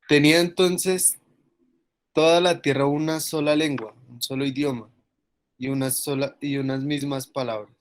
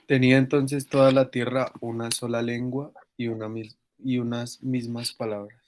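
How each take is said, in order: First: It is read expressively, with strong emphasis. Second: It is read plainly, without special emphasis.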